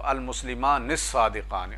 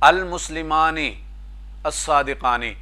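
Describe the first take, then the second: First: The two words run together without a break. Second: The two words are said separately, with a break. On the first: "मिलाकर पढ़ेंगे तो" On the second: "अलग अलग पढ़ना है तो वो भी आप पढ़ सकते हैं"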